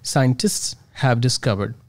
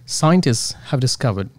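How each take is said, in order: First: It stops briefly after the full consonant cluster. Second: It flows smoothly with a consonant dropped. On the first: The speaker calls it wrong. "after st, I had to stop" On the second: The speaker calls it right. "then I can speak more smoothly"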